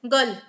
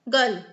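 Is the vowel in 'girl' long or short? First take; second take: short; short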